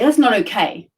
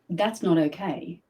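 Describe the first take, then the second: First: The voice sounds defiant and resistant. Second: The voice drops low and sounds calmly firm. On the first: The speaker is resisting rather than standing firm. The speaker calls it wrong. "And now I'm in defiant or resistant" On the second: The speaker is grounded in their own authority. The speaker calls it right. "my voice drops"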